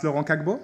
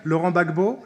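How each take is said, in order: First: "Laurent Kagbo", starting the surname with a hard k; Gbagbo mispronounced. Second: Said in the usual way. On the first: Shown as a demonstration. Student mock-decrees a new pronunciation, "Kagbo" for Gbagbo. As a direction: say "Kagbo" with k for the opening gb. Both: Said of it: "shall be pronounced in the following manner".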